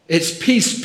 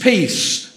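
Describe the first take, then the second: First: Peace lifted up at the end like a call; rising tune. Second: Peace brought down, higher and louder, final; falling tune. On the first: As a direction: let peace ring upward, unfinished. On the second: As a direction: land peace firmly with a falling close. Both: Real, not acted. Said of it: "but peace".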